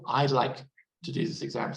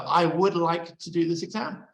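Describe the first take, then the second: First: The words 'I would' are contracted to 'I'd'. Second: The words 'I would' are said in full. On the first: The speaker calls it right. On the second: The speaker calls it wrong.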